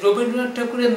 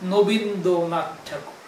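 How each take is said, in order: First: The name begins with an r sound. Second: The name begins with an n sound. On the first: The speaker calls it right. "রবীন্দ্রনাথ ঠাকুরের নাম" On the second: The speaker calls it wrong. "সে বলতেছে কি নবীন্দ্রনাথ ঠাকুর"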